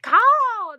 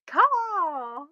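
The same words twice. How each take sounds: First: Loud high bird screech; hawk screech. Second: Hawk screech. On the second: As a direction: echo the hawk cry a little lighter. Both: Shown as a demonstration. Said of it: "That's what it is".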